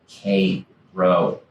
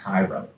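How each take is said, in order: First: It is said the local town's way. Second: It is said like the Egyptian city. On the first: The speaker calls it right. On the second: The speaker calls it wrong.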